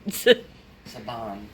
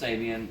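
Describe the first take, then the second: First: The name is said with two syllables. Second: The name is said with three syllables. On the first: The speaker calls it wrong. "I kept pronouncing Sabian Saban" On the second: The speaker calls it right. "No, no, it's Sabian"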